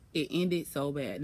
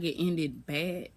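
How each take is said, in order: First: "it ended so bad" said slow, weight on "ended"; slow emphatic. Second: "it ended bad" stretched very slowly, "ended" drawn out and rising; drawn-out emphasis. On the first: Telling the viewers how badly it ended, slowing on "ended". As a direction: lean on "ended" like the start of a confession. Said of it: "Y'all, when I tell you". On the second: Topping her own line to the viewers, drawing "ended bad" out very slowly. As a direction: drag out "ended bad" for drama. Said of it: "Not even, like".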